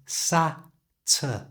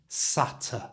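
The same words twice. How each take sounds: First: The word is said slowly, broken into parts. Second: The word is said smoothly at normal speed. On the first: "move the t from the end of sat to the front of that schwa sound" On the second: "at normal speed"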